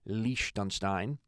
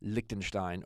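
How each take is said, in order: First: The name has a local German-style pronunciation. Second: The name has a plain English pronunciation.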